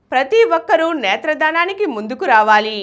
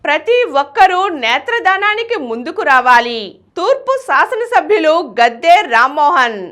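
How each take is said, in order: First: Said in the usual way. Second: Headline read. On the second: Acted. Story title over music.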